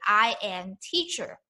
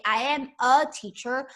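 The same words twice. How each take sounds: First: "I am teacher." with the article left out; dropping the article on purpose; literal Chinese word order. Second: Said in the usual way. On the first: Shown as a demonstration. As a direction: say "I am teacher." with no "a", as Mandarin would. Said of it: "but in Mandarin, we just say". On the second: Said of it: "in English, you say".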